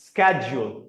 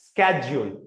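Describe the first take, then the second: First: It starts with an 'sk' sound, American style. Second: It starts with an 'sk' sound, American style.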